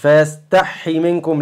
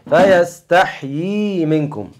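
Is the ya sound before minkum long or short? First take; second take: short; long. First: The ya sound is clipped short and swallowed. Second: The ya sound is drawn out, like two. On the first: The speaker calls it wrong. "مش ... لا تاكلهاش" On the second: The speaker calls it right. "مطلي شوية بقى"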